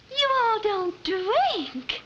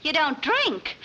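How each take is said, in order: First: "you all" drawn out slowly; Southern accent. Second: Said in the usual way. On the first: Acted. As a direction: back into the slow Southern drawl. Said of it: "I mean". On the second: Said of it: "I mean, you all don't drink".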